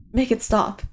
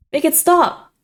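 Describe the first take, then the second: First: Said in the usual way. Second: Much higher, louder desperate scream; cracking scream. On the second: A narrator's reading. Iggy begs the voice in his head to stop, screaming. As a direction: let the voice crack as you scream it. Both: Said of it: "My vocal cords crack with the words".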